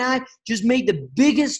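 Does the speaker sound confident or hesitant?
confident. It is said with confident, energetic belief. The speaker believes strongly in the offer. The speaker calls it right. "And that's how I said it"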